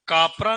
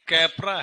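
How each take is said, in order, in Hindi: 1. पहला स्वर लंबे 'ah' जैसा बोला जाता है। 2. पहला स्वर 'ae' जैसा बोला जाता है। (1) "कापरा नहीं है" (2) "ये कैपरा है ये"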